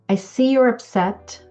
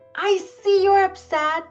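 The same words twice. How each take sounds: First: The voice is calm and firm. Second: The voice is tense and overwhelmed. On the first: The parent is in control. "Sounds calm, right? And firm" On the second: The parent is overwhelmed and rushed. "Same words, very different energy"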